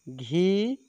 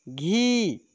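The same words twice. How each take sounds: First: घी said lightly with rising end; gentle short vowel. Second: घी stretched, rising then falling; forceful long vowel. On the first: Teacher showing first of the pair, gentle short घी. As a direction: ease up through a brief घी. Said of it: "एक को धीरे से बोलेंगे". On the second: Teacher showing second of the pair, firmer long घी. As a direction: lean into a long घी. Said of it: "बाद वाले को जोर से बोलेंगे". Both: Shown as a demonstration.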